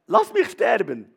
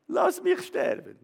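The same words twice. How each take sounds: First: Louder cry of giving up; loud weary plea to die; loud despairing plea. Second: Slow, much higher despairing moan; high slow wail to die; high drawn-out wail. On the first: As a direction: call it out loud like a broken prophet. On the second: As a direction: stretch it high and slow, almost a whimper. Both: Acted.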